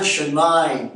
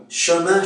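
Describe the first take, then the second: First: "chemin" ending in a gliding "aïn"; Québécois nasal diphthong. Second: Said in the usual way. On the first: Shown as a demonstration. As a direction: say "chemin" as che-maïn. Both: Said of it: "Le son un se prononce ein".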